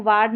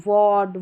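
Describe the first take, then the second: First: "वार्ड" with a long aa; wrong open-aa pronunciation. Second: "वार्ड" with a rounded aw; correct aw pronunciation. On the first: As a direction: say "वार्ड" as vaard. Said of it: "इसको वार्ड नहीं". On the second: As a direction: say "वार्ड" as vawd. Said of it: "ए का उच्चारण अ करके". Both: Shown as a demonstration.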